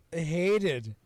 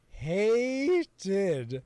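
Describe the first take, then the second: First: "hated" hit hard and louder; emphatic dislike. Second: "hated" stretched long and slow, rising high; drawn-out emphatic dislike. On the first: Host confessing dislike of the voice cast, emphatic. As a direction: punch the word "hated". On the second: Host repeating his dislike of the cast, drawn out. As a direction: drag out "hated" with force. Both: Real, not acted.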